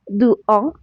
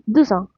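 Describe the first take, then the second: First: The words are said separately without a Z sound. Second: The words are joined with a Z sound. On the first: The speaker calls it wrong. "on ne dit pas" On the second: The speaker calls it right. "on dit"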